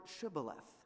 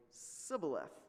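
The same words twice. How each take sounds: First: "Shibboleth" with a clear sh at the start; correct password pronunciation. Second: "Sibboleth" with s in place of sh; mispronounced password. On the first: Gileadites test a fugitive with "Shibboleth", deliberate sh sound. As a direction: say "Shibboleth" slowly, higher, opening on sh. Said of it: "they said to him". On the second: Ephraimite fails the test saying "Sibboleth", s for sh. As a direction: say "Sibboleth" higher, opening on a plain s. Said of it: "he could not pronounce it right". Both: Shown as a demonstration.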